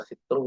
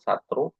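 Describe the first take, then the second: First: The first vowel is an i sound. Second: The first vowel is an a sound. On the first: "Bisa dibaca sitru" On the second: "bisa satru"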